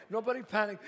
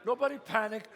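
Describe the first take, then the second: No difference in how they are said.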